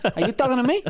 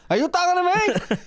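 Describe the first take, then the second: First: It is said with plain, moderate intensity. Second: It is said with stronger, heightened intensity.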